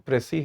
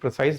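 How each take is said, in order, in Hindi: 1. इस शब्द का अंत 'see' ध्वनि से होता है। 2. इस शब्द का अंत 'size' ध्वनि से होता है। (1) "प्रेसी है सही उच्चारण" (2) "ये प्रिसाइज नहीं है"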